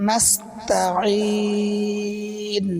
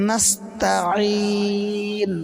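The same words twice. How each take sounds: No difference in how they are said.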